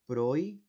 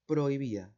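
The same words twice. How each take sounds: First: "Prohibía" as prohi, bí, a, long pauses between; syllable by syllable. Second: Said in the usual way. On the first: Shown as a demonstration. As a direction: break "Prohibía" into three detached syllables. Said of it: "Cómo lo silabeo". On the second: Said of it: "cuál es la otra palabra".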